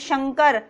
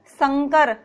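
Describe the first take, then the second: First: The word begins with an 'sh' sound. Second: The word begins with an 's' sound. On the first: The speaker calls it right. "शुद्ध उच्चारण है वो क्या है? हमारा शंकर।" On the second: The speaker calls it wrong. "दोनों में कितना अंतर आ रहा है?"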